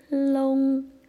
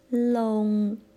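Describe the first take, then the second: First: The word begins with an l sound. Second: The word begins with an l sound.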